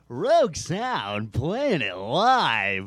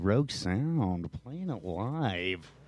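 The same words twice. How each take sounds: First: It is said in a cheesy radio-announcer voice. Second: It is said in an ordinary speaking voice.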